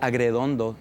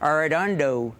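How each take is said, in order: First: The name is pronounced with Spanish sounds. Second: The name is pronounced with English sounds. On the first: "don't pronounce it the right way" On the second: "Say my name in English"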